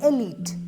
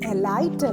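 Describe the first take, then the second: First: The second syllable has an 'ee' vowel. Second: The second syllable has an 'eye' vowel. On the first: The speaker calls it right. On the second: The speaker calls it wrong. "എലൈറ്റ് അല്ല"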